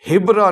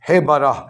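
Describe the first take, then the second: First: No vowel is sounded between b and r. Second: A full vowel is sounded between b and r. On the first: The speaker calls it wrong. "हिबरा न पढ़े" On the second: The speaker calls it right. "बेकसरिल हा, व फतहिल बा"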